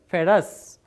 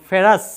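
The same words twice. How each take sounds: First: ফেরাস said slowly and clearly as "fe-raas"; careful pronunciation. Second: ফেরাস said as "feraas", a bit louder; name ফেরাস as a quick, firm first example; pronounced example. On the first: Teacher repeating the name for students: ফেরাস said slowly. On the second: Teacher giving the class an example: ফেরাস said firmly. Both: Shown as a demonstration. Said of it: "উচ্চারণটা হবে ফেরাস".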